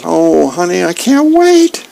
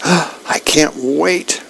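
First: Gushing with delight, slowing at the end; giddy excited squeal. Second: Slow, hushed and dreamy; awed whisper of longing; breathless anticipation. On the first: Dagwood excited about dessert. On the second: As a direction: savour each word like dessert. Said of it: "And Dagwood goes". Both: Acted.

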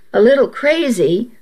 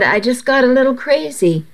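First: "A little crazy?" rising, stress on "little"; skeptical echo. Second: Said in the usual way. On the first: A narrator's reading. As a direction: throw "little" back with raised doubt. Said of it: "I arched an eyebrow".

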